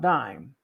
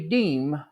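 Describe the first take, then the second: First: The vowel is an 'eye' sound. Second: The vowel is a long 'ee' sound. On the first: The speaker calls it wrong. "not dime" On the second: The speaker calls it right. "The correct, correct pronunciation is actually diem"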